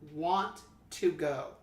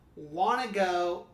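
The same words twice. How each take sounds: First: Each word is said separately without linking. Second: The words run together as one linked chunk. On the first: The speaker calls it wrong. "instead of" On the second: The speaker calls it right. "Use connected speech and link words together"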